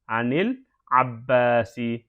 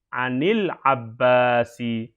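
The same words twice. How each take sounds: First: The n takes an i vowel and links forward. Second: The same.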